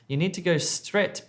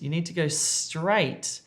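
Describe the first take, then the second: First: The last word has a short eh vowel. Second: The last word has a long ay vowel. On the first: The speaker calls it wrong. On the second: The speaker calls it right.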